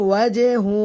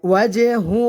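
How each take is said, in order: No difference in how they are said.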